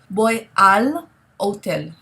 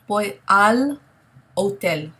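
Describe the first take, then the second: First: The words 'a' and 'el' merge into 'al'. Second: The words 'a' and 'el' merge into 'al'.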